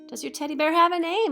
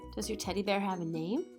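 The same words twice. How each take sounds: First: It is said louder. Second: It is said at a normal, quieter volume.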